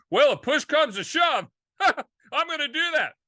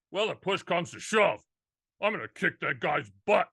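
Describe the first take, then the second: First: High, loud, laughing take on the phrase; hammed-up exclaim with a chuckle; excited mock quote. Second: Said in the usual way. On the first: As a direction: blurt it out with a laugh.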